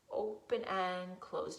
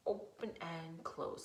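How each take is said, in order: First: Said in the usual way. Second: A hushed, much softer whisper. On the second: Shown as a demonstration. Teacher whispering the claw instruction to kids. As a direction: whisper the words like a secret.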